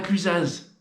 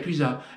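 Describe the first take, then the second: First: The final z sound is pronounced. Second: The final z sound is silent. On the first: The speaker calls it wrong. "Ah non" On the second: The speaker calls it right. "On ne prononce pas le Z"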